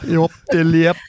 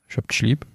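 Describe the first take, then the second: First: It is said in a strange foreign-sounding accent. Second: It is said in a Hessian dialect.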